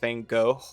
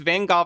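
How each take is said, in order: First: The name ends with a final cough-like sound. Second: The name ends with no final cough-like sound. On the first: "how I normally pronounce it ... with like a little bit of at the end, like the same way I pronounce cough" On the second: "specifically pronounced like that"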